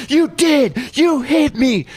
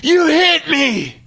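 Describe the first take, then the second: First: Son's accusation. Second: High, slow, shrieked accusation; son's scream. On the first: Son tells the mom his dad hit him, high shout. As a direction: insist like a wronged child. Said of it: "and he goes". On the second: Son on the grass screams at dad, high shriek. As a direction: shriek it like a hurt kid blaming dad. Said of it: "and Kaysen screams". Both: Retold or imitated.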